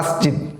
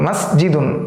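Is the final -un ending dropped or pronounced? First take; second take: dropped; pronounced. First: The word stops without the final -un sound. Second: The word ends clearly with an -un sound. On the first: The speaker calls it wrong. "আমরা বলবো না মসজিদ" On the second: The speaker calls it right. "আমরা স্পষ্টভাবে বলবো মসজিদুন"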